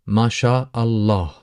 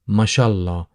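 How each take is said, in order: First: Every sound of the phrase is said fully. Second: The phrase is said softened and run together. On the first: "that is the full pronunciation" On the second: "soften and tend to kind of uh, make the phrase a little bit more easier or smoother to pronounce"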